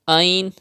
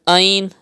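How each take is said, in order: The two takes are said the same way.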